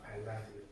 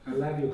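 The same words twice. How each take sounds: First: It sounds warm and sincere. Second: It sounds mocking and insincere.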